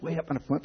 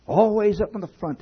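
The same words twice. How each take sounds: First: Said in the usual way. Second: Always hit higher and louder, then falling; stress on always. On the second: Acted. Repeats the line with more force.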